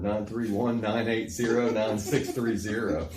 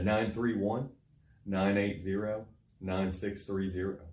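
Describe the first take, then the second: First: The number is said at normal speed. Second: The number is said more slowly.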